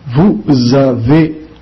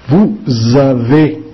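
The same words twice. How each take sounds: First: Vous avez slow again, s of Vous voiced as z; z liaison. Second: Vous avez slow, s of Vous voiced as z; z liaison. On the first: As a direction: repeat Vous avez with a clear z link. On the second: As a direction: link Vous avez with a buzzing z. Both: Shown as a demonstration. Teacher drilling Vous avez slowly with z liaison. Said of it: "o S de nous e vous tem som de Z".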